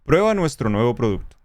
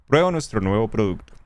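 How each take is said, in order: No difference in how they are said.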